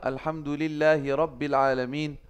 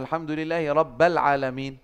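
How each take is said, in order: First: The word after alhamdulillahi ends in an 'i' vowel. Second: The word after alhamdulillahi ends in an 'a' vowel. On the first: The speaker calls it right. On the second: The speaker calls it wrong. "Rabba dibacanya. Enggak robbi"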